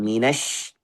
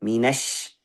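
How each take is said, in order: First: The final consonant is a sh sound. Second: The same.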